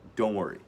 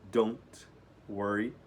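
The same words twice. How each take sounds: First: The T in don't is barely pronounced. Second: The T in don't is clearly pronounced. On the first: "geralmente nos Estados Unidos eles vão falar rapidamente, mal vão pronunciar o T" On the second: "Às vezes podem dizer don't worry"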